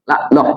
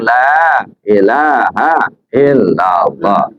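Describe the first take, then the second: First: The phrase is clipped to two short syllables. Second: Every syllable of the phrase is fully pronounced. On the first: The words of the phrase are not fully uttered. The speaker calls it wrong. "Tidak boleh juga dikurangin" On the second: The phrase is uttered completely. The speaker calls it right. "Ini bukan la ilahnya panjang"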